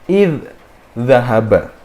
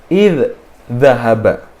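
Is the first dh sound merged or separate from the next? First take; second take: separate; separate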